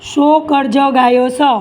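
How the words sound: It is said in a rural village dialect. "આ તળપદા શબ્દમાં મેં કીધું"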